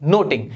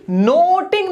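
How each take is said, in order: First: नोटिंग with a quick, unstretched first vowel. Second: नोटिंग with a long, high, drawn-out o; stretched vowel. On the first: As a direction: say नोटिंग without dragging the o. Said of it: "ये पढ़ा जाता है". (नोटिंग बिना खींचे, झट से) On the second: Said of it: "नोटिंग नहीं पढ़ा जाएगा". (नोटिंग में 'ओ' को खूब खींचकर) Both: Shown as a demonstration.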